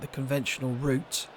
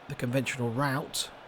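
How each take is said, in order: First: It is said in a British accent. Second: It is said in an American accent.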